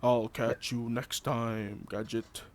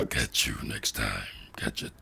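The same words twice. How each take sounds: First: Unhinged villain. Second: Very low, menacing growl; unhinged villain. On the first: Retold or imitated. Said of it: "just like Inspector Gadget". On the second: Shown as a demonstration. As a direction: drop the voice way down. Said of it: "didn't even need to use autotune".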